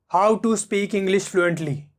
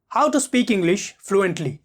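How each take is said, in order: First: The pitch stays flat and monotone. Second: The pitch moves between high and low. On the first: The speaker calls it wrong. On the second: The speaker calls it right.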